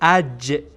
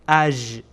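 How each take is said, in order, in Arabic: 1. الحرف الساكن صوت j صلب. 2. الحرف الساكن صوت zh ناعم. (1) "بلکه اج" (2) "ژ تلفظ نکنین، نگیم اج اج"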